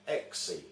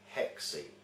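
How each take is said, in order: First: The word begins with a vowel, no h. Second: The word begins with an h sound. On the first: The speaker calls it right. "the word six is pronounced exi" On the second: The speaker calls it wrong. "mispronounced by witches in the English language as hexi"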